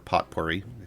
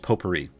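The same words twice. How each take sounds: First: The word is pronounced in a deliberately odd way. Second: The word is pronounced the ordinary way.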